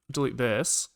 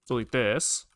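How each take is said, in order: Both takes have the same delivery.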